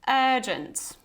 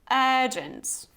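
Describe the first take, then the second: First: The first vowel is long. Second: The first vowel is long.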